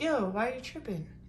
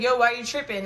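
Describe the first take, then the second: First: It sounds gentle and loving. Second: It sounds harsh and rude.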